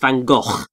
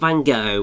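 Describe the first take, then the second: First: The name is said the original Dutch way. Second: The name is said the popular English way. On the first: The speaker calls it right. "it's Van Gogh" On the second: The speaker calls it wrong. "technically it's not Van Gogh"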